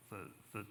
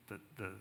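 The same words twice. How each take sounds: The two takes are said the same way.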